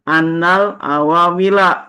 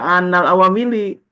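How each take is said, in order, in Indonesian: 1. Kata terakhir berakhir dengan vokal 'a'. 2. Kata terakhir berakhir dengan vokal 'i'. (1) "I'lam annal awamila" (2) "enggak dibaca annal awamili. Nanti kalau kita baca annal awamili diketawain"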